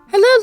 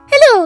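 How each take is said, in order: First: It is said in the speaker's natural voice. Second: It is said in a put-on Navi voice.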